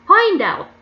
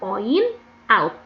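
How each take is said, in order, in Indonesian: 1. Kedua kata itu disambung. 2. Kedua kata itu diucapkan terpisah. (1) "dibacanya agak digabung" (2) "Tulisannya point out"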